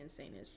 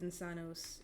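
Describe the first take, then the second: First: It is pronounced the English way. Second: It is pronounced the Latin way. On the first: "If you want to say English way" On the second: "if you want to say it the Latin way, that's how you say it"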